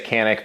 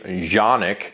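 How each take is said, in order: First: The name begins with a hard K sound. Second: The name begins with a soft sound. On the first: This is how English speakers say it. "we just say Canik because we don't use soft C's" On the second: This is how it is said in its home country. "the way they pronounce the brand name"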